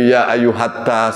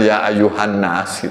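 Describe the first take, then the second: First: The final syllable is said as 'tas'. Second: The final syllable is said as 'nnas'. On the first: The speaker calls it wrong. "ternyata nun itu kayak nyambung" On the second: The speaker calls it right.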